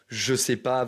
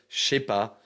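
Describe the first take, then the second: First: Every sound of the phrase is pronounced fully. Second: Sounds are dropped and run together quickly.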